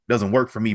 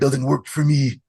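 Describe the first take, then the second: First: It is said in the speaker's usual accent. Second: It is said in a put-on Canadian accent. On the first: The speaker calls it wrong. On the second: The speaker calls it right.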